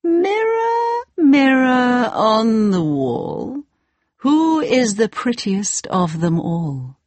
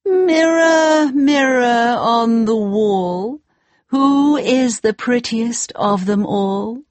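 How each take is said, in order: First: High, slow queen voice; a slow, haughty queen; evil queen. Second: Demanding queen, shouted; angry queen shouting. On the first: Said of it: "Every day she said". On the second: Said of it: "she said". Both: Acted.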